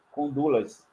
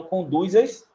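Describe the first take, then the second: First: "Condulas" with L in place of Z, said softer; correct contracted form. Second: "Conduz-as" with a buzzing Z link and a rising end; awkward uncontracted form. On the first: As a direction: say "Condulas" as one word, stressed on "du". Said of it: "Mas é o correto". ("Condulas" com L, tônica no "du", mais baixo) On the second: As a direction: offer up the odd "Conduz-as", lifting the end. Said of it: "Vê como ia ficar estranho". ("Conduz-as" com Z, subindo no fim) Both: Shown as a demonstration.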